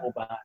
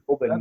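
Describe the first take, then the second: First: The vowel in the word is fully pronounced. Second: The vowel in the word is reduced. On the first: This is how people abroad say it, from the whisky. The speaker calls it wrong. "not Oban" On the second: This is how locals in Scotland say it. The speaker calls it right. "It's Oban, Don't pronounce your vowel"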